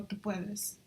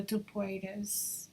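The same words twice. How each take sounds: First: Tu Puedes in a Spanish accent, softer. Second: Tu Puedes in an American English accent; gringo accent. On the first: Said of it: "I totally said that with a gringo". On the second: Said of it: "I totally said that with a gringo, um, accent". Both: Real, not acted.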